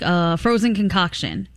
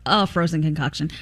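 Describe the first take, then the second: First: The first word is a hesitant 'uh' sound. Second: The first word is a clear 'ay' sound. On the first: The sound is a filler before the answer. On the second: The sound is part of the answer itself.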